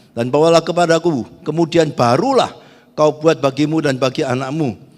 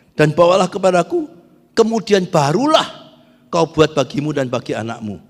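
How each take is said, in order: No difference in how they are said.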